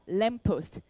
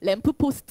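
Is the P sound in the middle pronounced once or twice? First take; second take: once; twice. First: The P sound is pronounced only once, linked. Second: The P sound is pronounced twice, separately. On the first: The speaker calls it right. "P는 두 개 발음 연결되어 있기 때문에 한 번만 발음하셔야 됩니다" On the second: The speaker calls it wrong. "제발 촌스럽게 램프 포스트 하지 마세요"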